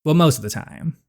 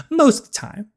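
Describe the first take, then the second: First: Said in the usual way. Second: "Most of the time" repeated much higher and teasing; playful higher echo. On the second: Shown as a demonstration. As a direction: bounce "Most" up high like a wink.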